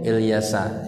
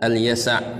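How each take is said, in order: First: The name begins with an 'il' sound. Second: The name begins with an 'al' sound. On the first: This is how people commonly memorize it. The speaker calls it wrong. "Kalau kita menghafalnya itu Ilyasa" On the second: This is the correct form of the name. The speaker calls it right. "Tapi yang benar adalah Al-Yasa'"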